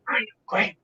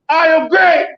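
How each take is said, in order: First: It is said quietly and calmly. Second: It is said loudly and intensely.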